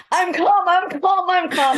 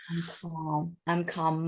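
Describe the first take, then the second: First: High, loud, strained "I'm calm" that is anything but calm; wrong way, shrill tense. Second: Calming voice. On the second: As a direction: say "I'm calm" softly, letting the voice settle. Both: Shown as a demonstration. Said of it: "use your calming voice".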